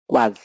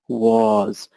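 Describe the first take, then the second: First: The vowel is short and clipped. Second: The vowel is long and drawn out. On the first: The speaker calls it wrong. "very often people say was, was, and it's not cool" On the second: The speaker calls it right. "Say was. Make it longer"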